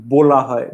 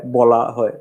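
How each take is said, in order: First: বলা with a rounded "o", as "bola"; closed o vowel. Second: বলা with an open "aw", as "bawla"; open ɔ vowel. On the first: (বলা-য় ও-কার উচ্চারণ) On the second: (বলা-য় অ উচ্চারণ) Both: Shown as a demonstration. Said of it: "ও, অ আর এ".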